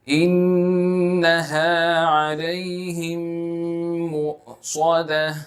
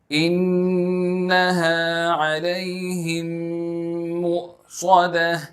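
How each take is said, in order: The two takes are said the same way.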